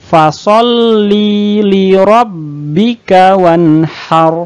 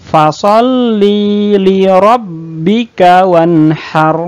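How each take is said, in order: No difference in how they are said.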